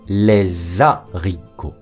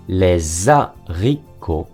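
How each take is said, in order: Both takes have the same delivery.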